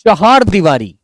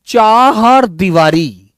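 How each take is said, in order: First: Said in the usual way. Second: चार दीवारी drawn out, चार said as Chahar; slow dictation. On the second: Shown as a demonstration.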